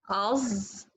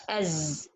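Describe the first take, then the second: First: "as" as a held, dark az; heavy Z mistake. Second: "as" as a light az, middle of tongue down. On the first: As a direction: demonstrate a too-heavy buzzed ending on "as". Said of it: "they make it heavy". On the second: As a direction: soften into a thin buzzed z on "as". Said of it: "make it light, put your tongue from the middle down". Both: Shown as a demonstration.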